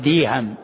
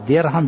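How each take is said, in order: First: The middle consonant is a y sound. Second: The middle consonant is a plain r sound. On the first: The speaker calls it wrong. "وبعضهم يأتي بالياء فيقول ديهم" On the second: The speaker calls it right. "فبدل أن يقول درهم"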